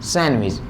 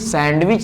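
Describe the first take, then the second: First: The d sound is left out. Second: The d sound is clearly pronounced. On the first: The speaker calls it right. "सैंडविच क्या पढ़ेंगे सैंडविच, डी is silent" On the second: The speaker calls it wrong. "इसको कभी भी सैंडविच नहीं पढ़ते"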